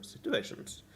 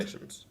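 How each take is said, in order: First: "situations" said high and soft, with the final S hardly heard; "situations" fading out before its final S; dropped final S. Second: "Situations" said quietly, with a small S at the end; "Situations" ending on a soft but audible S; clear final S. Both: Real, not acted. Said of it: "Have a small S there at the end".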